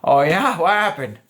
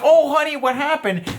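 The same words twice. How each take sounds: First: Relaxed, casual acknowledgment in a normal register; just check in, no gushing; active listening. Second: Very high, gushing fake sympathy; overly nice concern. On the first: Coach shows a man how to answer her venting, casually interested. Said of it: "give the active listening". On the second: Coach shows the wrong reply to her venting, overconcerned. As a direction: fuss over her in a sugary mock voice. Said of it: "being overly nice is not authentic". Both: Shown as a demonstration.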